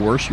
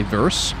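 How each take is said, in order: First: Said in the usual way. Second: "verse", a V in place of the W of worse; Danish-accented "verse" with V replacing W. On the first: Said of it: "instead of saying worse". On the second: Shown as a demonstration. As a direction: begin "verse" on a V, as Danes do. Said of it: "you'll say verse".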